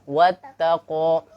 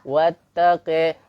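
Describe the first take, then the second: First: The final vowel is an open 'a' sound. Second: The final vowel leans toward an 'e' sound. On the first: This follows the Hafs reading tradition. "Kalau bacaan uh, riwayat Hafs" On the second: This follows a reading tradition that uses imalah. "dengan metode imalah"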